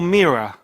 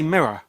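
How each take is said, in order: First: The first vowel is long, like 'meer-a'. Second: The first vowel is short, like 'mir'. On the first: "It's all mirror. Like it's M E E R A" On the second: "They can't say mirror"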